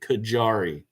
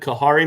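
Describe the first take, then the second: First: The middle consonant is a hard J. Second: The middle consonant sounds like an H. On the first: The speaker calls it right. "It's a hard J" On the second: The speaker calls it wrong. "I was pronouncing it Kahari, thinking the J would sound like an H"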